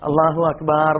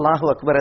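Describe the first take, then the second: First: The last vowel of Akbar is drawn out long. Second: The last vowel of Akbar is short. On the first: It turns the word into drums. The speaker calls it wrong. "എത്ര അർത്ഥം മാറും" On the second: God is the greatest. The speaker calls it right. "അള്ളാഹു അക്ബർ എന്ന് തന്നെയാണ് പറയേണ്ടത്"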